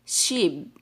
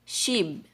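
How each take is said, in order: First: The word ends with a B sound. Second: The word ends with a B sound.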